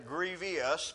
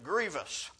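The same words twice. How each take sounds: First: The word is said with an extra syllable. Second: The word is said with no extra syllable. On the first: The speaker calls it wrong. "I sometimes mispronounce that and say grievous" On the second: The speaker calls it right. "It's grievous"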